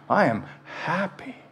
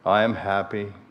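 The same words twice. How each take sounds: First: It is said warmly, with heartfelt feeling. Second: It is said flatly, like rote reading.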